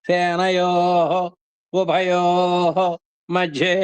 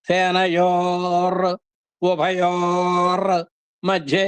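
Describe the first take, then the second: First: The words end in vowels with no r sound. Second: The words end with an added r sound. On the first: These are the separate original words. "అని దీని యొక్క origin" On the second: The words are joined by sound change. "రకారాలు అయిపోయినాయి"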